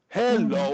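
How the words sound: The pitch starts high and goes low. "high low"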